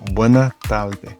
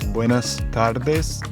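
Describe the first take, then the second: First: The S sounds at the word ends are dropped. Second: The S sounds at the word ends are pronounced.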